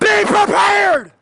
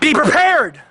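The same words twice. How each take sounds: First: It is said in a Southern American accent. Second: It is said in a plain, neutral accent.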